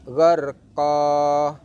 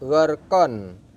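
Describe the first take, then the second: First: The word ends with a long a vowel. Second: The word ends with an n sound. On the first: The reader stops at this word. "kalau di waqaf maka dibaca gharqa" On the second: The reading continues without stopping. "Awalnya dibaca gharqon"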